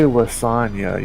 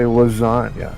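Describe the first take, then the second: First: The s is a plain hissing sound. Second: The s is a buzzing z sound. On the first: The speaker calls it wrong. "you don't say lasagna" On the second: The speaker calls it right. "There's a buzz on that S"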